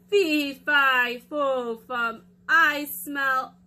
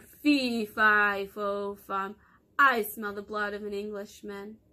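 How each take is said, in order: First: Loud, slow, drawn-out giant chant. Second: Giant voice. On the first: Giant sniffing for Jack, loud and slow. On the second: Giant sniffs out Jack. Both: Acted.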